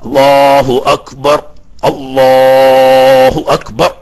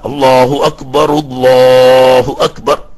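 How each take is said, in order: First: The first Akbar ends cleanly on r, one breath. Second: The first Akbar ends in ru, linked onward. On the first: "അപ്പൊ വഖഫുമായി ഒരു ശ്വാസത്തിൽ ഒരുമിച്ച് കൂട്ടൽ പോയി" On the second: "ഇനി വഖഫ് ചെയ്യാതെ ഒരു ശ്വാസത്തിൽ ഒരുമിച്ച് കൂട്ടാം, റാവിന് റൊമ്പു കൊണ്ടിട്ട്"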